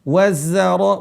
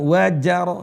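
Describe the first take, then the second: First: The consonant after wa is a z sound. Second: The consonant after wa is a j sound. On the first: The speaker calls it right. "za. Di sini bukan huruf jim, za" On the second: The speaker calls it wrong. "bukan wajaro ya"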